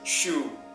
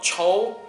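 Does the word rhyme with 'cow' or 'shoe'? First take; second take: shoe; cow. First: The vowel sounds like the one in 'shoe'. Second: The vowel sounds like the one in 'cow'. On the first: The speaker calls it right. "French pronunciation choux" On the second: The speaker calls it wrong. "Not chow"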